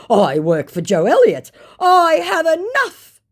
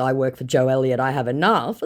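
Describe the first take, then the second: First: Mock boastful scammer. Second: Said in the usual way. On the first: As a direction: ham up the scammer's brag. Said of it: "he claims". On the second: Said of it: "And in response to".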